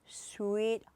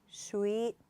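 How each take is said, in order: Both takes have the same delivery.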